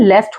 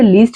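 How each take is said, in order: First: The vowel is a short 'eh' sound. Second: The vowel is a long 'ee' sound. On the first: The speaker calls it right. "इसकी correct pronunciation लेस्ट होती है" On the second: The speaker calls it wrong. "कुछ बच्चे इसे लीस्ट भी pronounce करते हैं जो कि गलत है"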